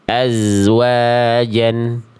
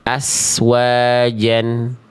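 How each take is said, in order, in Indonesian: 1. Konsonan desisnya adalah bunyi z bersuara. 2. Konsonan desisnya adalah bunyi s tak bersuara. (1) "yang semestinya adalah azwajan. Dia mengalir suara saja dengan desisan" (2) "jangan sampai dibaca gini"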